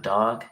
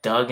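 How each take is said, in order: First: Said in the usual way. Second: "Doug" with a short uh vowel for dog; regional pronunciation. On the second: Shown as a demonstration. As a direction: say "Doug", rhyming with rug. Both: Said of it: "Doug instead of dog".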